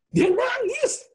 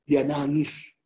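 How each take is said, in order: First: Very high, loud mock dismay; dramatic exclamation. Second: Said in the usual way. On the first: Exclaimed repeat for dramatic effect. (seruan dramatis bernada tinggi)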